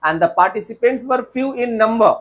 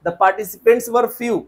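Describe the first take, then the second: First: Slow faulty sentence; slow wrong example. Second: Slow model sentence; slow corrected example. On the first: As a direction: read the wrong line slowly. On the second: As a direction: say the fix slowly. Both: Shown as a demonstration. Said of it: "No sir".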